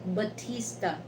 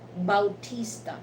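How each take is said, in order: First: The first syllable is a plain 'ba' sound. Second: The first syllable has an 'ow' glide, 'bau'. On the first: This is how Americans say the name. "in American, you know, pronunciation, they uh, pronounce that Batista" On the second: This is how Filipinos say the name. "in Filipino, we pronounce that Bautista"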